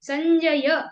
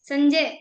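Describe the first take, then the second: First: The final vowel is fully pronounced. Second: The final vowel is dropped. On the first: The speaker calls it right. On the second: The speaker calls it wrong.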